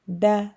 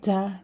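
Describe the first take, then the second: First: The d is dry, with no extra air. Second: The d is pushed out with extra air. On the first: The speaker calls it right. "It should be dry" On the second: The speaker calls it wrong. "Not da, di, do. Don't push"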